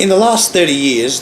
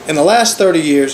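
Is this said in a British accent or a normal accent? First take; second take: British; normal. First: It is said in a put-on British accent. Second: It is said in his normal accent.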